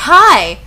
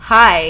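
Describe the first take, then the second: First: High, loud, acted hello; eager greeting. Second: Subdued falling hello, no lift; sad reply. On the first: Narrator greeting Draco, in an eager high call. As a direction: greet him with a burst of eagerness. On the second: Draco answering the greeting, mildly downcast. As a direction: answer with a touch of gloom. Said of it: "his face was all sad". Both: A narrator's reading.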